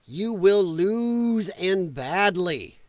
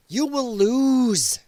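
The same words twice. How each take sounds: First: Very slow, weight on "will" in "You will lose and badly"; deliberate, drawn-out "You will lose and badly"; slow emphatic warning. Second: Very slow, every word weighted: "You will lose"; deliberate, drawn-out "You will lose"; slow emphatic warning. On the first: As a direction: lean hard on "will", drag the line out. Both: Real, not acted. Ranting threat at Canada.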